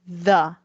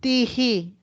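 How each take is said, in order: First: It starts with a th sound. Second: It starts with a plain t sound. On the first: The speaker calls it right. "we say the" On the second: The speaker calls it wrong. "we don't say tihi"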